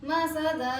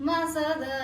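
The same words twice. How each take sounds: The two takes are said the same way.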